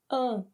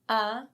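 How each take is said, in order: First: The vowel is nasal, through mouth and nose. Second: The vowel is oral, through the mouth only. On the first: "and now for the nasal sound" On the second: "A in the open sound"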